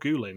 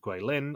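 First: The name is said with altered sounds. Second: The name is said in its usual form. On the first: The speaker calls it wrong. "or Gulin if you are Michelle" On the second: The speaker calls it right. "teams were flown to Guilin"

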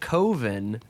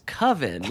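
First: The vowel does not rhyme with oven. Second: The vowel rhymes with oven. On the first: This is how the filmmaker himself says it. "He calls it Coven" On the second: This is how everyone else says it. "it's Coven, like oven"

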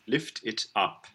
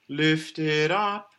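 First: A glottal stop separates lift from it. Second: Lift runs straight into it with no break. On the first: The speaker calls it right. "Put a glottal there" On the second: The speaker calls it wrong. "We don't want"

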